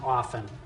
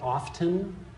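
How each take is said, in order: First: The T sound is silent. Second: The T sound is pronounced. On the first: The speaker calls it right. "there is no T that's pronounced in often" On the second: The speaker calls it wrong. "Some people like to pronounce the T in often. You've heard it"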